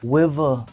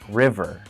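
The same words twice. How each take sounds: First: The word begins with a W-like sound. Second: The word begins with a clear R sound. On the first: The speaker calls it wrong. "I used to say" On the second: The speaker calls it right. "Now I can say my R's perfectly"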